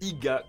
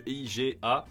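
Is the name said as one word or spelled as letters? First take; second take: one word; letters. First: The name is said as a single word. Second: The name is spelled out letter by letter. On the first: The speaker calls it wrong. "comme si c'était un mot" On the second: The speaker calls it right. "comme un sigle E I G A en lettres séparées"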